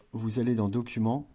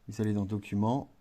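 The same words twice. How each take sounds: The two takes are said the same way.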